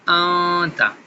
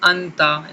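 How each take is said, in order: First: The n sound is hidden in nasalization. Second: The n sound is pronounced clearly. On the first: The speaker calls it right. "सही तरीका जो है कि वो इख्फ़ा के साथ है" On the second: The speaker calls it wrong. "कुछ लोग हमज़ा ज़बर नून अन ता ज़बर ता अंता इसको पढ़ते हैं"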